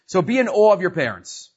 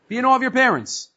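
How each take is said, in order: First: Said in the usual way. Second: Awe lifted higher and leaned on; stress on awe. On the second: Shown as a demonstration. Teacher repeats the verse to students, stressing awe.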